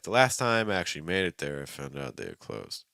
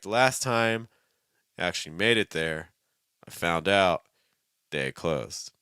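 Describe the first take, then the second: First: The two phrases flow together with little pause. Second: A long pause separates the two phrases. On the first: The speaker calls it right. "Something like that is going to sound a lot more linked together" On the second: The speaker calls it wrong. "Don't pause too long between your thought groups. So don't be like"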